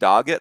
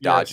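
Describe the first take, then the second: First: The middle consonant is a hard G sound. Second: The middle consonant is a soft J sound. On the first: This is the other person's pronunciation. "You're saying dog it" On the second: This is the speaker's own pronunciation. "I'm saying dodge it"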